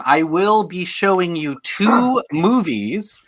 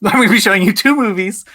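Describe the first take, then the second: First: Drawn-out announcement. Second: Quicker, higher, through a laugh; mock your own announcement, laughing and hurrying it; laughing self-mockery. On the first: Real, not acted. Host explains the game to contestants, drawn-out announcement. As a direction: stretch it out, slowly presenting the choice. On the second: Host repeats his own game explanation, laughing self-mockery. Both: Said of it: "Why did I have to say that?".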